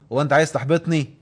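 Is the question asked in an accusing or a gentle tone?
accusing. The question sounds sharp, hostile and accusing. It accuses the other person and provokes a fight. The speaker calls it wrong. "هتلاقيه فجأة عمل الاسد وقام هاجم عليا"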